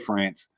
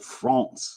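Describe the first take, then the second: First: It is said with an American English pronunciation. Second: It is said with a French pronunciation. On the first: "In the United States, we just say France" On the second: "But in France, you go France"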